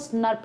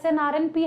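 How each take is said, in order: First: It is said as one short word. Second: Each letter is spoken separately. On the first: "बुलाते इसको S N R P है" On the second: "दिखता है S N R N P है"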